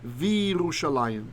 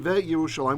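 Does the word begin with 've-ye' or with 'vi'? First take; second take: vi; ve-ye. First: It begins with 'vi', with no separate 'y'. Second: It begins with a short 've' then 'ye'. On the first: The speaker calls it right. "we say" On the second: The speaker calls it wrong. "we don't say"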